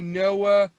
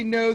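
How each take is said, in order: First: The vowel is drawn out, a Philadelphia pronunciation. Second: The vowel is plain, a standard American pronunciation. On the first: "they say Noah" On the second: "when they say no"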